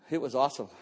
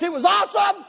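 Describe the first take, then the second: First: Much lower, soft and hushed; quiet. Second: High shouted joy; excited. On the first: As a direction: let it sink in, barely above a breath. Hushed reflective repeat. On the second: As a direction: burst out with it. Joyful exclamation about getting saved. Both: Real, not acted.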